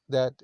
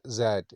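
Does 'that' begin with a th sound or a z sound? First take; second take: th; z. First: It begins with a soft th sound. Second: It begins with a buzzing z sound. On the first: "T H A T, instead of that" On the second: "there is that, Z, S A T"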